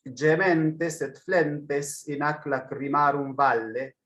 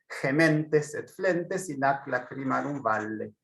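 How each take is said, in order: First: It is read with a non-Spanish Latin pronunciation. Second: It is read with a Spanish Latin pronunciation.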